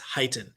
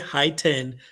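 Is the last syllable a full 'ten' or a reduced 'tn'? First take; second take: reduced tn; full ten. First: The last syllable is a reduced 'tn'. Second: The last syllable is a full 'ten'. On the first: The speaker calls it right. "but it's heighten" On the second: The speaker calls it wrong. "a lot of people say high ten"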